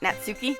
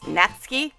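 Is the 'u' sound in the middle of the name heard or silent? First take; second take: heard; silent. First: The middle 'u' vowel is clearly pronounced. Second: The middle 'u' vowel is silent. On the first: The speaker calls it wrong. "not Natsuki" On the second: The speaker calls it right. "I guess that's pronounced Natsuki ... So I guess the U is silent"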